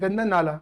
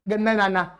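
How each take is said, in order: First: The second word is pronounced with an l sound. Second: The second word is pronounced with an n sound.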